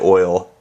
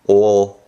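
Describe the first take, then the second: First: It is said plainly, without a throaty sound. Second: It is said deep in the throat, gagging. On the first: "I just say oil" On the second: "They got phlegm stuck in the back of their throat"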